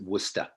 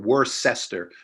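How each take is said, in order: First: The syllables are squeezed together into fewer. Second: Every written syllable is pronounced separately. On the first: The speaker calls it right. "they just pronounce it Worcester. They smash the syllables together" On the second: The speaker calls it wrong. "it looks like Worcester or Worcester"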